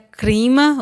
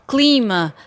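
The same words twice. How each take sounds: First: The cluster has an R sound after c. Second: The cluster has an L sound after c. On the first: This is a spoken regional variant. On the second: This is the standard form.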